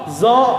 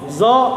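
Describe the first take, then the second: Both takes have the same delivery.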